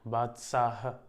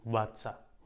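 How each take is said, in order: First: The word ends with an h sound. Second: The word ends without an h sound.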